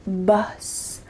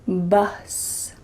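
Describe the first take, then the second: First: The vowel is a short U sound. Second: The same.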